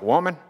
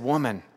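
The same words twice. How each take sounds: First: It is said in a gruff, chauvinistic southern manner. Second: It is said softly with tenderness and affection.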